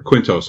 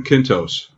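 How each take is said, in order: First: "Quintos" starting with KW, KWIN-tohs; alternative pronunciation. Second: "Quintos" starting with a plain K, KIN-tohs; first pronunciation. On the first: Host offering another try at the surname, "Quintos" as KWIN-tohs. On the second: Host guessing at an executive's surname, "Quintos" as KIN-tohs. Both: Shown as a demonstration. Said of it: "however you pronounce it".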